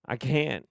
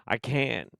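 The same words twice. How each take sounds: The two takes are said the same way.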